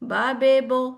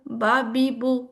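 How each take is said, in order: First: The vowels sound like ah, ay, oh. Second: The vowels sound like ah, ee, oo. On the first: The speaker calls it wrong. "जो गलत हो" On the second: The speaker calls it right. "ई जैसी ... ऊ जैसी"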